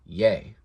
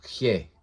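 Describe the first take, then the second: First: "ye" as yay, without the guttural h; "ye" pronounced yeh, nothing from the throat; Latin y sound. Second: "he" as a throaty khyeh; "he" with a rough guttural h; guttural Greek sound. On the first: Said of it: "they pronounced it ye instead". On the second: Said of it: "the Greek guttural". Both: Shown as a demonstration.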